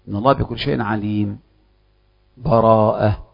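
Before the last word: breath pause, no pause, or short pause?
breath pause. A full stop with a breath before the last word. The reciter fully stops between the two passages. "الوقف يكون مع أخذ النفس"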